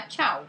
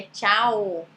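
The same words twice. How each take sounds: First: "tchau" said short, ending in "oo"; Portuguese final U. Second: "tchau" slow, drawn out to a clear "oh"; Italian final O. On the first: Teacher warning what not to say, "tchau" with a final U. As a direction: say "tchau" the Brazilian way, closing on U. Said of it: "escreve ainda com U". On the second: Teacher giving the correct form, "tchau" with a long final O. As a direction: open the end of "tchau" into O, chah-oh. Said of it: "pra não falar tchau". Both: Shown as a demonstration.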